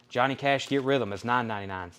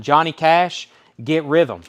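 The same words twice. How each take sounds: First: Said in the usual way. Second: Called out louder, a little higher; punchy auction call; loud announcement. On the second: Real, not acted. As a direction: announce the lot to the room. Auctioneer announcing next record.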